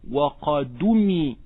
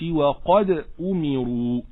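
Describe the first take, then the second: First: The glottal stop is dropped, its vowel moves to d. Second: The glottal stop after 'qad' is pronounced.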